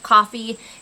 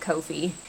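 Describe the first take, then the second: First: The first vowel sounds like 'cough', as in coffee. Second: The first vowel sounds like 'go', as in Koh-fee. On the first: The speaker calls it wrong. "It feels weird to pronounce it coffee" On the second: The speaker calls it right. "so I just pronounce it Ko-fi"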